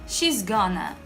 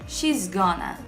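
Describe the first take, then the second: First: The words are contracted and run together. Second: The words are contracted and run together.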